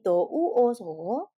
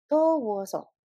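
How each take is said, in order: First: Each syllable is said separately and slowly. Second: The syllables run together quickly as one word. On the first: The speaker calls it wrong. "Bukan menjadi do, u, o, so" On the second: The speaker calls it right. "dicepetin ngomongnya sehingga menjadi dowoso"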